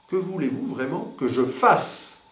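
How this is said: The emphasis falls on the word fasse. The focus is on the action to be done. "ou sur faire"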